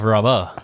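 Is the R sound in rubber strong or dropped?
dropped. The R sound is soft or dropped. This is the speaker's own way of saying it. "instead of rubber"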